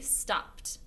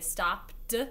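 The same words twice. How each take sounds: First: The ending is said as a 't' sound. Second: The ending is said as a 'd' sound. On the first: The speaker calls it right. "we say stopped" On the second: The speaker calls it wrong. "we don't say stopped"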